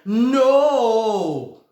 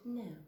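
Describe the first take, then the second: First: The word is stretched out long. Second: The word is said short and crisp.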